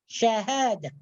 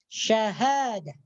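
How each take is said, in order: Both takes have the same delivery.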